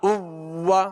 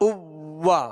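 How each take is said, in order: Both takes have the same delivery.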